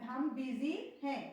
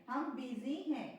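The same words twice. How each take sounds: No difference in how they are said.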